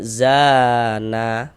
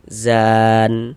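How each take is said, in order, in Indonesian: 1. Kata ini berakhir dengan tambahan vokal a. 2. Kata ini berakhir pada bunyi n yang tertutup. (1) "Jangan dibaca zana baru berwakaf" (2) "kita berwakaf di huruf nun kita baca mizan"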